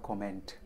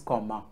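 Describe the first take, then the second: First: The word ends with a sounded t. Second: The word ends without a t sound. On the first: The speaker calls it wrong. "Please don't say comment. It's not comment" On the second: The speaker calls it right. "It is comma"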